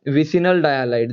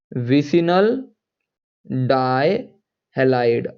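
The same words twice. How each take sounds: First: Said in the usual way. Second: Drawn-out "vicinal", pause, then stretched "dihalide"; slow dictation. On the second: Real, not acted. Teacher dictating a chemistry term to students, slow dictation. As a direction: say "vicinal dihalide" very slowly, piece by piece. Spells out term slowly while writing.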